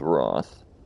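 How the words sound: The word is said with a British vowel. "the British pronunciation is Roth"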